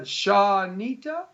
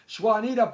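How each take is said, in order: First: The name begins with an 'sh' sound. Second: The name begins with an 'sw' sound. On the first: The speaker calls it right. "there we go" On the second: The speaker calls it wrong. "I know I'm totally killing it"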